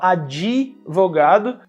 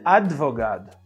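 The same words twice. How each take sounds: First: An extra vowel is added after the d. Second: The d goes straight into v, no vowel. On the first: "tem gente que fala advogado" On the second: "mas a palavra na verdade é advogado"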